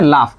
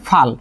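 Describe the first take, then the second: First: The word begins with an l sound. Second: The word begins with an f sound. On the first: "ল এর জায়গায় ফ আসছে" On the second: "ফ এর জায়গায় ল হয়েছে"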